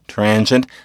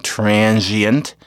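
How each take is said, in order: First: The ee syllable merges into a sh sound. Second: A separate ee syllable follows the z sound. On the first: This is the form after the sound change. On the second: This is the form before the sound change.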